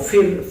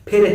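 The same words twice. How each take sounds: First: It starts with an f using lip and teeth. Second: It starts with an aspirated p using both lips. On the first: This is how people from Goa say it. The speaker calls it wrong. "Goa के जो लोग हैं वो फिर, फल, फूल वगैरह कहते हैं" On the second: This is the standard Hindi pronunciation. The speaker calls it right. "जैसे हिंदी में फिर है"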